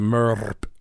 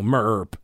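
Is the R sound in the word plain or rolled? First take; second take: rolled; plain. First: The R is rolled, sounding like a purr. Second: The R is pronounced plainly, without a roll.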